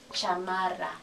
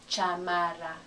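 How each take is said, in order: First: Every vowel keeps a full ah sound. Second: The same.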